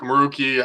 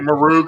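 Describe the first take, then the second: First: The name ends with a final vowel sound. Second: The name ends without a final vowel sound. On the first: "I always pronounce the E at the end" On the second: "not everybody does"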